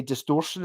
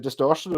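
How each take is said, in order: First: Imitated Stirling pronunciation of "distortion"; Stirling accent. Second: Said in the usual way. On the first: Shown as a demonstration. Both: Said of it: "they say distortion instead of distortion".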